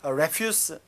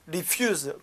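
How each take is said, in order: First: It uses the noun pronunciation of the word. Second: It uses the verb pronunciation of the word. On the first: It means garbage. "명사 발음이죠" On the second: It means to decline. "거절하다"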